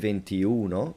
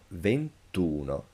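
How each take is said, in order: First: The i of venti is kept before uno. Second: The i of venti is dropped before uno. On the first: The speaker calls it wrong. "you don't say ventiuno" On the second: The speaker calls it right. "but ventuno"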